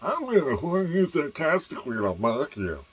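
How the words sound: It is said in a nasal, mocking voice.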